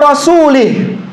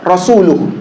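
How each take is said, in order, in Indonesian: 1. Vokal sebelum h terakhir adalah i. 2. Vokal sebelum h terakhir adalah u. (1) "terkadang orang kebawa" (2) "rasul harokatnya dhammah"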